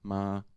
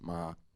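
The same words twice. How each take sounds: First: The pitch stays level at middle height. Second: The pitch stays level and low. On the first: "It's like normal tone height" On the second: "the low tone is marked with a with a grave accent"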